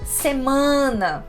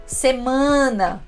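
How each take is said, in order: Both takes have the same delivery.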